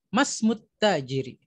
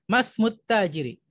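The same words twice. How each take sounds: No difference in how they are said.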